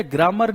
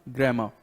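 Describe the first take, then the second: First: "ग्रामर" said as "graa-mar", final r sounded; wrong pronunciation demo. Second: "ग्रामर" said as "grae-ma", final r silent; correct pronunciation. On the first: Teacher warns students off this, "ग्रामर" as "graa-mar" with final r. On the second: Teacher corrects it for students, "ग्रामर" as r-less "grae-ma". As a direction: end "ग्रामर" on an open vowel: "grae-ma". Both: Shown as a demonstration. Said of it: "ग्रामर नहीं".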